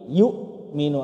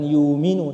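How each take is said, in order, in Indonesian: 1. Ada hamzah sebelum m. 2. Vokalnya langsung menyambung ke m. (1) "ada hamzah sukun"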